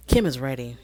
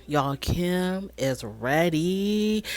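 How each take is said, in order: First: Said in the usual way. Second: "ready" stretched out very slowly, softly; drawn-out emphasis on READY. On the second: Real, not acted. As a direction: tease it slowly, dragging out "ready". Repeats it drawn out for effect.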